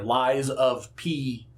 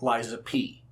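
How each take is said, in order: First: It is said slowly with each sound clearly articulated. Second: It is said quickly with loose, run-together sounds. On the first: The speaker calls it right. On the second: The speaker calls it wrong.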